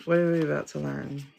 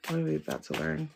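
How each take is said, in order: First: Said in the usual way. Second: Soft, drawn-in wondering to herself; hushed question. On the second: Real, not acted. Reader awaiting the next card, hushed. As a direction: ask it again under your breath, much softer.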